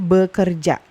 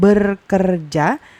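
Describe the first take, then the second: First: The first syllable ends without an R sound. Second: An R sound closes the first syllable. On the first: The speaker calls it right. "tapi bekerja. Kayak gini" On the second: The speaker calls it wrong. "jadinya bukan berkerja, bukan gini"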